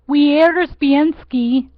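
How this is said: The name is said with an anglicized pronunciation. "bastardize it here or pronounce it here, you would say"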